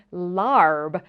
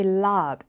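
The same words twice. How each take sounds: First: "larb" with the R sounded; pronounced R before the b in "larb"; North American pronunciation. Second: "lab" with a long ah, no R; R silent in "lab"; British-style R-less pronunciation. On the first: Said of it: "come to the U S and Canada". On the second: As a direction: say "lab" as lahb. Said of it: "if you live in the U K or Australia". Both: Shown as a demonstration.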